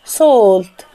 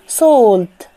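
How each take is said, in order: No difference in how they are said.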